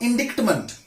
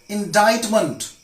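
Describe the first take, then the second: First: The C sound is pronounced. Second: The C sound is silent. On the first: The speaker calls it wrong. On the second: The speaker calls it right.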